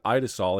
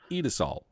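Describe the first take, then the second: First: The first vowel is not an 'ee' sound. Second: The first vowel is a long 'ee' sound. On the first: The speaker calls it wrong. "I've always said Idesol" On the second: The speaker calls it right. "the I's are pronounced like a long E"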